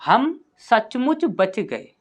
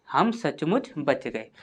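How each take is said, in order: First: Slow dictation. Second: Said in the usual way. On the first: Shown as a demonstration. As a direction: read out slowly, word by word, slightly higher. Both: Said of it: "इसके बाद है आपका".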